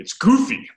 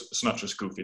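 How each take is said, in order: First: "goofy" said as guf-e, much higher and louder, "my body"; Aramaic guf-e. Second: Said in the usual way. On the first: Shown as a demonstration. Teacher revealing the Aramaic pun, "goofy" higher and louder. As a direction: land "goofy" as the Aramaic word with suffix e. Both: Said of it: "say the suffix "e".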